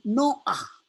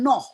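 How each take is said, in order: First: An 'a' vowel is heard before the final h. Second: No vowel is heard before the final h. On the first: The speaker calls it right. "Ini Noah" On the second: The speaker calls it wrong. "bukan Noh"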